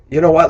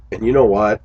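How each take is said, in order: First: Higher and louder, punching know; livelier redo. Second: Said in the usual way. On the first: Shown as a demonstration. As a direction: make "know" pop with more energy. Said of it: "let me, let me do that again". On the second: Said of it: "let me do that again".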